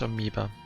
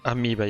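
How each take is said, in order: First: The word is said with English pronunciation. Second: The word is said with Japanese pronunciation. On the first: "in English that's amoeba" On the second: "Let's say it in Japanese"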